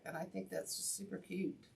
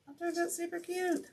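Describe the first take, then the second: First: Said in the usual way. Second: High squeal of delight, much higher; gushing cute. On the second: Real, not acted. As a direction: squeal over how cute it is.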